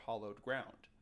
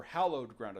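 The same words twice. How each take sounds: First: "hallowed" with an open "ah" in the first syllable, like "hollowed"; mispronounced hallowed. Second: "hallowed" with a short "a" as in "hat"; corrected hallowed. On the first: Host slips on the term for holy ground, "hallowed" sounding like "hollowed". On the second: Host corrects the term for holy ground, "hallowed" said as HAL-owed. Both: Shown as a demonstration. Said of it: "It's pronounced hallow, isn't it?".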